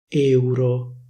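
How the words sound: The E vowel is closed. This is how it is said in Milan. "A Milano queste parole vengono pronunciate con una E chiusa"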